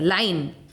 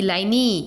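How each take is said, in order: First: The word ends on the 'n' consonant. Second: The word ends with an added 'ee' vowel. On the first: The speaker calls it right. "लाइन इतने तक हो रहा है, ई omit हो रहा है" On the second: The speaker calls it wrong. "ऐसे हो रहा है क्या"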